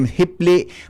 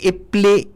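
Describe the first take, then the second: First: The word starts with an h sound. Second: The word starts directly with the vowel. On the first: This is how the speaker's own community says it. "Sa muya, ang term kan sa mo, ako yan eh, hipli" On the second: This is how people in some other places say it. "Sa iba, ang apod kaini ipli"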